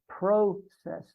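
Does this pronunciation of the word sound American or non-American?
non-American. The word is said in a non-American way. This is the form the group required everyone to use. The speaker calls it right. "we always said process"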